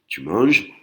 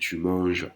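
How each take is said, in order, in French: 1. Elle est prononcée avec l'intonation d'une question. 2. Elle est prononcée avec l'intonation d'une affirmation. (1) "si je change mon intonation... je te pose une question" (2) "ça veut dire que tu es en train de manger"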